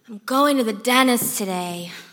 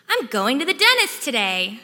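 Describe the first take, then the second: First: The speaker sounds reluctant and dreading. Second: The speaker sounds relieved and happy.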